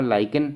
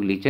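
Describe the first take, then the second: First: Lichen said as "LYE-ken" with a hard k; preferred pronunciation. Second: Lichen said as "LIT-chen" with a ch sound; alternative pronunciation. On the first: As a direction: give the teacher's way, lichen as "like-en". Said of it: "lichen मैं बोलूँगा". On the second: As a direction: say lichen the way some people do, "litchen". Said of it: "कुछ लोग lichen भी बोलते हैं". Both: Shown as a demonstration.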